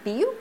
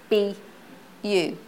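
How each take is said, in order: First: Be You asked with a lift; Be You tossed up as a question; Be You rising like a puzzled query. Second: Be ... You with a pause between; Be, then You, set apart deliberately; Be You split into two slow beats; spaced out. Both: Shown as a demonstration. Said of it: "I've called it Be You".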